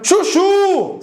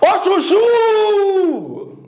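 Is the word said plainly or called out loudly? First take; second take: plainly; called out. First: The word is said plainly at normal volume. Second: It is called out loudly, last syllable drawn out.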